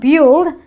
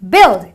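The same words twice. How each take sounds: First: The vowel is not a short i sound. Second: The vowel is a short i sound. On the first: The speaker calls it wrong. "it's not build" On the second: The speaker calls it right. "it is build, because the U I produces a short eh sound"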